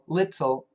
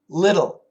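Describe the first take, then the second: First: The middle T is a clear, released T. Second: The middle T is a quick D-like flap. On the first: "We can say the T little" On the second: "but usually we say little"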